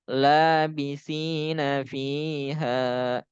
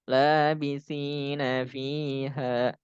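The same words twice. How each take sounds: No difference in how they are said.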